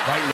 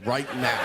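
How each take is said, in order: First: Right now repeated, each word punched; stress on Right now. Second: Said in the usual way. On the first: Shown as a demonstration. Comic repeating his own news plea to stress it, firm emphasis. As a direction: hit Right now hard and clipped. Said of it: "repeating the punchline". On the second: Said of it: "on the news going".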